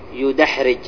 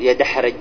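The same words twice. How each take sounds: First: The first syllable has the vowel u: yudahrij. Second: The first syllable has the vowel a: yadahrij. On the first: The speaker calls it right. "فإنك تقول يدحرج ... لكن تضم حرف المضارعة" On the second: The speaker calls it wrong. "ما تقول يدحرج، هذا لحن"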